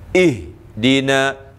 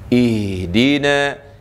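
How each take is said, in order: First: The h sound is cut off abruptly. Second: The h sound flows on with breath. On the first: The speaker calls it wrong. "jangan kita baca ih dina ih dina" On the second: The speaker calls it right. "jangan kita putuskan suara... yang terbaiknya begini"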